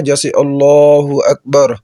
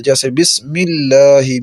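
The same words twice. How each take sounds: First: اللہ with thick full L, slow; teacher modelling heavy pronunciation; heavy Allah. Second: اللہ with thin light L, slow; teacher modelling light pronunciation; light Allah. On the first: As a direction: make اللہ heavy in اللہ اکبر. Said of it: "لفظ اللہ کو موٹا کر کے پڑھتے ہیں". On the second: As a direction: keep اللہ light after بسم. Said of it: "اللہ کا نام بریک پڑھا جائے گا". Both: Shown as a demonstration.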